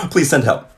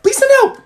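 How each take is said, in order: First: Said in the usual way. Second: Please send help much higher and louder; frantic plea. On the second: Shown as a demonstration. Begging viewers for help, high and loud. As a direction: cry out for rescue. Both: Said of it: "if I'm like this tomorrow".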